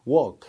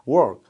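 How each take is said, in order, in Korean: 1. R은 묵음이라서 walk처럼 들립니다. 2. R 소리가 분명히 들립니다. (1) "거의 걷다 비슷하게 들리는 영국식 발음" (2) "R 발음이 들리는 미국식 발음"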